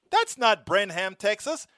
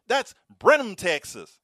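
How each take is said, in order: First: Brenham as BREN-ham, h sounded and full second vowel, higher and slower; the lady echoing the foreign Brenham, higher; wrong Brenham. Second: Brenham as BREN-um, no h, schwa ending, louder and higher on Brenham; the lady correcting him firmly. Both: Retold or imitated. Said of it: "The lady at the bus stop said".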